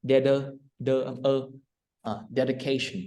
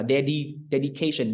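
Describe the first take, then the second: First: "dedication" with the second syllable reduced to "đơ", as in "deder"; American schwa. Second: "dedication" with a clear "dee" as second syllable; full D-I sound. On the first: Teacher shows how Americans say it, reduced schwa syllable. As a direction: soften the i of "dedication" to an uh sound. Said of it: "người Mỹ người ta đọc là". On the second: Teacher shows the form Americans avoid, full D-I sound. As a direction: say the middle of "dedication" as "dedi", with an ee. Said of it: "thay vì là đọc là". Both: Shown as a demonstration.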